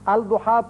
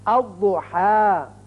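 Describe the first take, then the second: First: The L is clearly pronounced before the D. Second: The L merges into a doubled D sound. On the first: The speaker calls it wrong. "पढ़ना गलत है" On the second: The speaker calls it right. "दाद की मिसाल"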